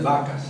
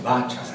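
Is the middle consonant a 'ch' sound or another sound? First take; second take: other sound; ch sound. First: The middle consonant is not a ch sound. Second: The middle consonant is a ch sound. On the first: The speaker calls it wrong. "No es vacas" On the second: The speaker calls it right. "es vachas. Aquí aparece la verdadera"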